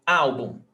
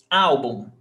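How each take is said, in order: Both takes have the same delivery.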